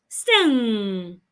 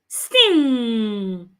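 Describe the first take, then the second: Both takes have the same delivery.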